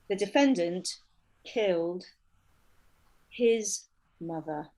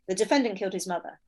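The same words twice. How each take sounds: First: It is said in a more emotional, serious way. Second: It is said in a flat, matter-of-fact way.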